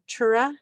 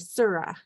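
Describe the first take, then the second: First: The word begins with a ch sound. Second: The word begins with an s sound. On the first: This is the form used in the Yupik-influenced area. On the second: This is the form used further west. "where my family's from, further west, we say Sura"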